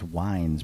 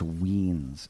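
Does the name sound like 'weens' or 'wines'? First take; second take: wines; weens. First: The vowel sounds like the word 'eye'. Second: The vowel sounds like the word 'see'. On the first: The speaker calls it wrong. "a lot of times people think it's Wines" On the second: The speaker calls it right. "but it's Weens"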